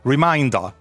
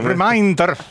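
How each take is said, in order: First: It is said with an English pronunciation. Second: It is said with a Scottish accent. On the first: "non diciamo veramente la parola in inglese, non diciamo reminder" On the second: "dillo in scozzese"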